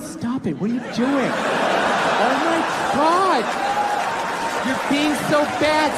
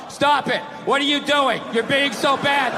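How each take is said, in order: First: It is said in a playful, teasing way. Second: It is read out in a flat, dull way.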